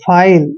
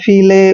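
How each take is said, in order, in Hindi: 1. स्वर 'eye' की ध्वनि है। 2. स्वर 'ee' की लंबी ध्वनि है। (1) "आई एल ई का उच्चारण आइल करेंगे, ऐसे फाइल" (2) "जो शुरू से पढ़ता होगा इंग्लिश को, इसको पढ़ेगा फीले ... ऐसे नहीं पढ़ना है"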